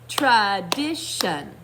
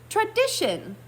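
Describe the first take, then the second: First: It is said slowly, syllable by syllable. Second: It is said fastest of all.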